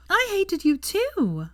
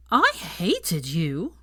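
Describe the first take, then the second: First: Put-on high, slow, delighted drunken cry of agreement; excited exclaim. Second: Put-on drunken slur. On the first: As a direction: gush it out, thrilled to agree. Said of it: "Hermione exclaimed excitedly". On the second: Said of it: "Pansy slurred". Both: A narrator's reading.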